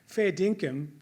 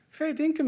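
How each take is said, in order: First: It is said as a firm statement. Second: It is said as a doubting question. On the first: It affirms that something is true. "it means true or genuine" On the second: It asks whether someone is serious. "you could use it as a t- questioning"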